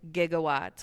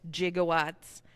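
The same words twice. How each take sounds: First: It begins with a hard G sound. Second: It begins with a soft J-like G sound. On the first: This is how people say it now. "with the hard G" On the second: This is how people used to say it. "like people used to pronounce it"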